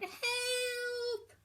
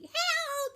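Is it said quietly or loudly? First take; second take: quietly; loudly. First: It is said quietly. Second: It is said loudly.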